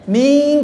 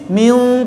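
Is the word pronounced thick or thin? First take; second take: thin; thick. First: The word is pronounced light and thin. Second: The word is pronounced heavy and thick.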